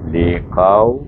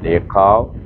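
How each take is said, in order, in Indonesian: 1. Bunyi waw diucapkan dengan lembut dan halus. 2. Bunyi waw diucapkan dengan kasar, tidak halus. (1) "dengan lembut" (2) "jangan liqaw"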